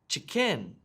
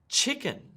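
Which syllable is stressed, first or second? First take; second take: second; first. First: The stress is on the second syllable. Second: The stress is on the first syllable. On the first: The speaker calls it wrong. "I don't say" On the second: The speaker calls it right. "Listen to how I emphasize the first part of the word"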